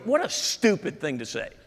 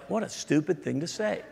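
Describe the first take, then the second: First: It is said in a blunt, harsh tone. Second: It is said in a gentle, polite tone. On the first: "Did I say that out loud?" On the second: "Let me say it politely"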